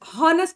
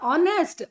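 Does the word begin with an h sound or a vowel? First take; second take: h sound; vowel. First: The word begins with an h sound. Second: The word begins with a vowel sound. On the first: The speaker calls it wrong. "ಹಾನೆಸ್ಟ್ ಅನ್ನಲ್ಲ" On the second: The speaker calls it right. "ಅಥವಾ ಆನೆಸ್ಟ್"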